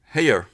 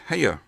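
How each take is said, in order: First: The vowel glides into a drawn-out diphthong. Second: The same.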